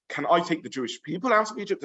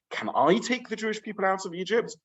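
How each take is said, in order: First: "Jewish people" emphasized, "I" left light; stress on PEOPLE. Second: "I" lifted high, the rest following as a question; stress on I. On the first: Moshe doubting the people are up to it, stress on "people". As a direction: put the weight on "people" in the question. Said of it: "Or is the stress". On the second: Moshe doubting his own suitability, stress on "I". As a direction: question hinging on the word "I". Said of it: "Is the stress". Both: Shown as a demonstration.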